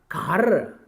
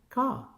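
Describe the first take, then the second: First: The R sound is pronounced after the vowel. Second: No R sound is pronounced after the vowel. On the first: "producing the sound raw even after the vowel sound, like C A R" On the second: "You can simply say ka"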